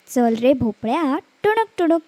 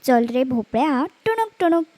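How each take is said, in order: Both takes have the same delivery.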